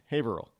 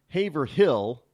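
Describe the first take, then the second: First: Haverhill run together as HAY-vril; local pronunciation. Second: Haverhill slowly with a full HILL, HAY-ver-HILL; wrong pronunciation. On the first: Host correcting for listeners, Haverhill said locally as HAY-vrul. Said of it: "It's Haverhill". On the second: Host showing what not to say, Haverhill slow as HAY-ver-HILL. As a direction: say Haverhill by the spelling, stretching out hill. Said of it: "It's not Haverhill". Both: Shown as a demonstration.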